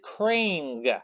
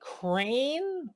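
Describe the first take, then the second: First: The name ends with a hard G sound. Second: The name ends without a G sound. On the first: "do you pronounce the G?" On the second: "my whole life I called him Crane without the G"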